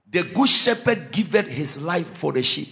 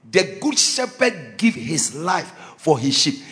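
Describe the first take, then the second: First: Said in the usual way. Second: The good shepherd said slowly, word by word; slow emphatic quote. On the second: Shown as a demonstration. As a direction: spell out "The good shepherd give his life" for them. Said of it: "Look at this. If you don't catch anything, catch this one".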